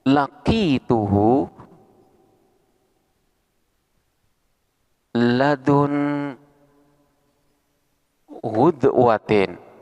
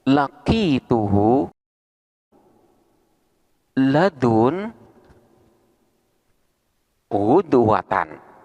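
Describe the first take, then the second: First: The last word ends with an 'in' sound. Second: The last word ends with an 'an' sound. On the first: The last word is joined to the one before it. "ghudwah di sini sebagai mudhof ilaihnya yang selalu dibaca cer" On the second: The last word stands alone as a specifier. "lafat ghudwah di sini dibaca nasab"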